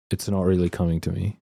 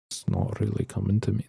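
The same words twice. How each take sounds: First: Said in the usual way. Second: Aussie attempt sliding into Irish; softer, botched Irish-sounding accent; accidental Irish accent. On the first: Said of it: "I'm trying to slip into it". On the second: Shown as a demonstration. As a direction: try for Australian and land on Irish. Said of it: "That's Irish".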